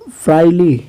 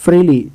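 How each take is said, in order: First: फ्राइली said with a long "ai" vowel; फ्राइली, a slip later corrected; mispronounced. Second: फ्रीली said with a plain "ee" vowel; फ्रीली, correcting the slip; corrected pronunciation. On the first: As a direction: misread फ्राइली as fry-lee. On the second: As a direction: fix it to फ्रीली, free-lee. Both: Shown as a demonstration. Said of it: "फ्रीली, sorry".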